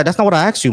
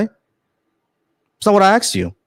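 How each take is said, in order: First: Said in the usual way. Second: "That's not what I asked you." spelled out slowly, higher, NOT stressed; slow emphatic repeat. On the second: Real, not acted. Repeating question to evasive caller.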